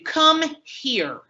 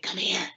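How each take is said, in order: First: It is said in a full, voiced tone. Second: It is said in a whisper.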